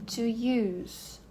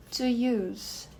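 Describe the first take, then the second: No difference in how they are said.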